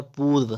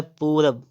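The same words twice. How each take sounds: First: पूर्व ending in rv; correct form. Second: पूरब ending in b; two syllables, पूरब with final b; wrong form. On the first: Teacher correcting, पूर्व with final v. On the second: Teacher reading the error, पूरब with b. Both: Shown as a demonstration. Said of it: "तो होता है पूर्व".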